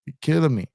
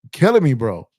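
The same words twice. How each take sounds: First: Said in the usual way. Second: Retelling the early wake-up call, exasperated; exasperated outcry. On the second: Retold or imitated. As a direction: throw up your hands, you're killing me. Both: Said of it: "I was like".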